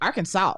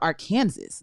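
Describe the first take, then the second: First: The word ends with a 'saw' sound. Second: The word ends like the word 'Kansas'. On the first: "why y'all say Arkansas" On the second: "Like you got Kansas"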